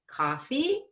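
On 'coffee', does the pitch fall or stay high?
falls. The pitch drops across the word. The speaker calls it wrong. "I didn't go coffee"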